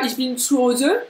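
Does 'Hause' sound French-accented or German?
French-accented. Hause is said with a French accent. The speaker calls it wrong. "Ça c'est très français"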